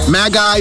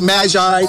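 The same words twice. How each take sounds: First: The middle consonant is a hard G sound. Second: The middle consonant is a soft J sound. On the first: "Whether you pronounce it as a G" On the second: "or a J"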